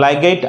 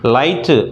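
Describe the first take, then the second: First: The word has a g sound in it. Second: The word has no g sound in it. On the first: The speaker calls it wrong. "లైగైట్ అనం కదా" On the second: The speaker calls it right. "లైట్ GH silent"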